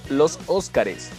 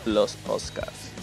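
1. El plural termina con una sílaba 'es' añadida. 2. El plural termina con un simple sonido 's'. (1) "No se dice los Óscares" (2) "se dicen los Oscars"

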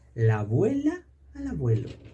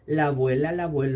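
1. La frase se dice despacio. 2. La frase se dice algo rápido. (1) "Vamos a hacerla primero despacito" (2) "un poquito más rápido"

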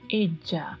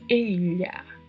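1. O L duplo soa como um som de dj. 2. O L duplo soa como um som palatal lh. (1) "Pode ter um som de como se fosse um D e um J" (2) "Ou como se fosse um LH"

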